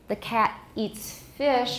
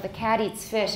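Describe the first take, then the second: First: The T in cat is a clear T. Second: The T in cat is a quick flap. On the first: "they will not have this allophone of T" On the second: "if it's an American, cat eats, we've got a tap there"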